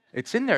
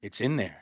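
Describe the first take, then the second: First: Said in the usual way. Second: Low, subdued admission; much lower and softer, under the breath; grudging scribes. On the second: Acted. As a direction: mumble it low and reluctantly, as the scribes. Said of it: "I could just see the scribes ... They're like".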